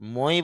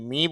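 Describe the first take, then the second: First: The vowel is said like 'oi'. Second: The vowel is said like 'ee'. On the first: "মই বলতে পারতেন" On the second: "এম আই মি বলতে পারতেন"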